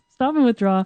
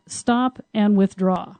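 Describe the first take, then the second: First: "and" leaned on to join "Stop" and "withdraw"; stress on and. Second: Said in the usual way. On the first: Shown as a demonstration. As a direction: hit "and", so it is both stop and withdraw. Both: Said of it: "Don't just stop".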